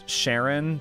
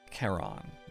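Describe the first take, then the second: First: The name begins with an SH sound. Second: The name begins with a K sound. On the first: This is a childhood reading habit. The speaker calls it wrong. "I've always pronounced it as Sharon" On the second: This is how the name is properly said. The speaker calls it right. "pronounced Charon, I guess"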